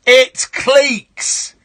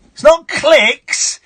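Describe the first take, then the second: First: "cliques" with a long ee, like cleeks, yelled; right "cliques". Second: "cliques" with a short i, like clicks, yelled; wrong "cliques". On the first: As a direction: shout "cliques" as cleeks, drawn out. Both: Pretend. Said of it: "scream in their face".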